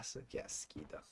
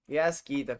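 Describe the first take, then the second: First: Disgusted whisper. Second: Said in the usual way. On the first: Real, not acted. Streamer whispering disgust at the laggy server. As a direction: breathe "qué asquito" as a soft, voiceless whisper.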